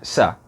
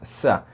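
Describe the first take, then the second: First: The s is an ordinary, normal s sound. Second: The s is made with the tongue near the teeth. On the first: "normal, que é o S" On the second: "Tipo um S, só que a língua pertinho dos dentes"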